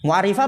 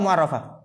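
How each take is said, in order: First: The vowel after the double r is i. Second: The vowel after the double r is a. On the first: It gives definiteness. "laisat ma mu'arrifah ya, lebih tepatnya" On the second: It is made definite. "mu'arrafatannya yang dima'rifahkan"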